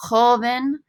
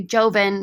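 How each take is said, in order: First: Joven with the J as a breath of H, "HO-ven"; correct Spanish joven. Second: Joven with an English J, like "JOE-ven"; hard English J opening joven; mispronounced joven. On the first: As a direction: say Joven the Spanish way, opening on an H sound. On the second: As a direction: say joven wrongly, starting with a J as in "job". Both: Shown as a demonstration. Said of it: "Notice I don't say joven".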